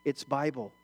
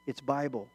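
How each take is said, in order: Both takes have the same delivery.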